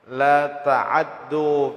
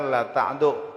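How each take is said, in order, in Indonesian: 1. Huruf ain dibaca dengan bunyi a yang pendek dan cepat. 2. Huruf ain sama sekali tidak diikuti vokal. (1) "dibaca cepatnya baris fathah yang ada pada huruf ain" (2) "bacaan kita riwayat Hafs la ta'du, ainnya tuh mati"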